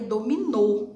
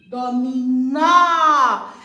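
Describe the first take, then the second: First: The final vowel is said with a closed sound. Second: The final vowel is said with an open sound. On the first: The speaker calls it wrong. "Se fosse acento circunflexo, ficaria dominô" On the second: The speaker calls it right. "ele mostra que o som do, da vogal é aberto"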